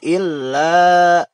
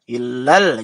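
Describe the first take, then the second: First: The L sound is single, vowel held long. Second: The L sound is doubled, vowel kept short. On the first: The speaker calls it wrong. "jadi dibacanya jangan illa" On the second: The speaker calls it right. "harus ditasydidkan dengan lam atau alif lam syamsiyah"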